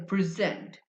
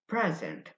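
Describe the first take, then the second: First: The stress is on the second syllable. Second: The stress is on the first syllable. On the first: It is a verb. "the stress on the second syllable present makes it a verb" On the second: It is a noun. "it's a noun"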